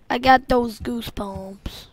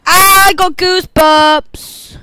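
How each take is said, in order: First: Said in the usual way. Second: Loud, slow, drawn-out I got goosebumps. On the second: Real, not acted. Scene: gamer spooked by the game, loud and drawn out. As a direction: stretch it out, high and loud, in awe.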